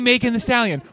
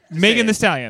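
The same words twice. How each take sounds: First: The word 'the' is light and unstressed. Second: The word 'the' is heavily emphasized. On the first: The speaker calls it right. "you just say it normally" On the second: The speaker calls it wrong. "they have to really hit the"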